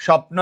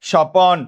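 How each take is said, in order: First: Said in the usual way. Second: স্বপন as two open syllables, "sho-pon"; inserted vowel. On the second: Shown as a demonstration. Teacher derives the word for students, স্বপন said "sho-pon". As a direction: put a clear "o" between p and n in স্বপন. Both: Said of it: "স্বপ্ন থেকে বললাম".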